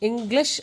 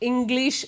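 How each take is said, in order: First: The second syllable has a short i vowel. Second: The second syllable has a long ee vowel. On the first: The speaker calls it right. "ഇംഗ്ലീഷ് എന്നാണ് പറയേണ്ടത്" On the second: The speaker calls it wrong. "ഇംഗ്ലീഷ് എന്ന് പറയരുത്"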